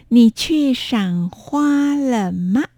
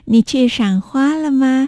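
First: The sentence is spoken slowly and carefully. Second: The sentence is spoken at conversational speed.

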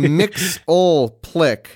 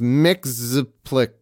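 First: An L sound comes before the P. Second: No L sound comes before the P. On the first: The speaker calls it wrong. "you're saying Mixoplick, but there's no L before the P" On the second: The speaker calls it right. "It's just Mixoplick"

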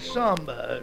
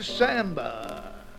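First: It is said in the speaker's home pronunciation. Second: It is said in a non-home pronunciation.

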